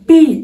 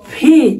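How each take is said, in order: First: The first consonant is unaspirated. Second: The first consonant is aspirated. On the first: The speaker calls it wrong. "Not পি" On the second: The speaker calls it right. "পি এর উচ্চারণ হচ্ছে ফি"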